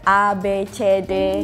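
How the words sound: The letters are named the Indonesian way. "in Indonesian, we say like"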